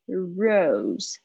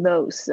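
First: The word begins with an R sound. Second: The word begins with an L sound. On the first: The speaker calls it right. "r 的声音r rose" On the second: The speaker calls it wrong. "不要念成rose 哦，不要念成l 的声音"

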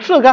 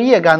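First: The first syllable is pronounced shè. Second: The first syllable is pronounced yè. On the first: "那你如果是从射人长杆出发，那应该读射干呢？" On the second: "过去我们中药这个行业就都读它叶干"

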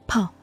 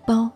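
First: The syllable begins with an aspirated p sound. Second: The syllable begins with an unaspirated b sound. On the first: The speaker calls it right. "读泡" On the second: The speaker calls it wrong. "不读包"

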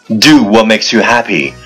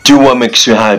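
First: It is said at a moderate, steady pace. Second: It is said very fast, in one breath.

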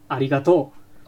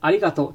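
First: Kansai accent, pitch rises at the end. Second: Standard Japanese, pitch falls at the end.

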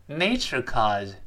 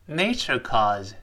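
Both takes have the same delivery.

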